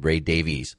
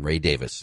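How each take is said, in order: First: The surname ends in a separate 'ee' sound. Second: The surname sounds just like 'Davis'. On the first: This is how people here say it. "Over here, we call him Ray Davies" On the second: This is how it is said in his home country. "the proper pronunciation"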